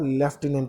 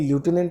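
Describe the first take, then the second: First: The first syllable is said as lef. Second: The first syllable is said as loo. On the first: The speaker calls it right. "लेफ्टिनेंट बोला जाता है" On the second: The speaker calls it wrong. "इसको बोलने में ल्यूटिनेंट नहीं बोला जाता"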